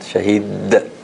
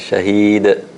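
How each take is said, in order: First: The final consonant is doubled and held. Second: The final consonant is light and relaxed. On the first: The speaker calls it wrong. "we don't want to make it put a shadda on it" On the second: The speaker calls it right. "Just, just relax"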